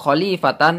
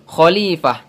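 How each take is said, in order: First: The word ends with a tan sound. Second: The word ends with an h sound. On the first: The speaker calls it wrong. "bukan khalifatan" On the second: The speaker calls it right. "akan tetapi khalifah"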